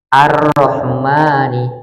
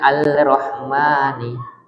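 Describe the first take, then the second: First: The L blends into a doubled R sound. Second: A clear L is sounded before the R. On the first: The speaker calls it right. "Ar-Rahmani bukan Al-Rahmani" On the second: The speaker calls it wrong. "bukan Al-Rahmani"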